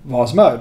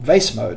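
First: Vase is said with a non-American pronunciation. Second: Vase is said with an American pronunciation.

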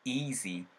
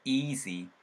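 First: The first vowel is slightly lengthened. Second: The first vowel is slightly lengthened.

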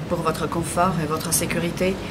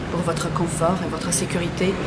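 No difference in how they are said.

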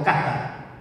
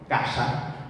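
First: The s sounds like th, between the teeth. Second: The s is apical, made with the tongue tip. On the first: This is a southern pronunciation. "o cata, interdental" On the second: This is the northern pronunciation. "Lo que antes era arriba, en el norte"

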